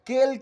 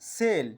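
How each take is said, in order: First: The word begins with a K sound. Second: The word begins with an S sound. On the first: The speaker calls it wrong. "এটাকে আমরা কেল কিন্তু বলছি না" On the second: The speaker calls it right. "অর্থাৎ হলো সেল"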